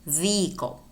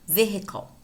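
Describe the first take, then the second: First: "vehicle" as VEE-ickle, no H; silent H. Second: "vehicle" with an audible H; H pronounced. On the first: Teacher contrasting two versions, "vehicle" with silent H. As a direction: run "vehicle" through without the H. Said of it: "Although you could say vehicle and pronounce the H". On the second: Teacher giving the other version, "vehicle" with spoken H. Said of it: "pronounce the H". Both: Shown as a demonstration.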